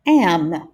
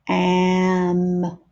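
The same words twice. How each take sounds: First: "am" short and quick, louder; said fast. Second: "Am" drawn out slowly; stretched out. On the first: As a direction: snap "am" out quickly. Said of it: "then say the word fast". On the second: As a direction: stretch "Am" long. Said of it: "stretch out the sounds". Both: Shown as a demonstration.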